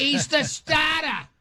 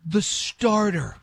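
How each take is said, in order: First: Slow, high-pitched New England dropped r's; mock the New England "starter" as "stahta"; exaggerated New England imitation, drawn out high; New England accent. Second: "starter" slowly, with its r's sounded; "starter" spelled out by ear, both r's audible; standard pronunciation. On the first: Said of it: "I never heard an accent so insane". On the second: Shown as a demonstration. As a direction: say "starter" drawn out and clear, pitched up. Clarifies the word after listener asks.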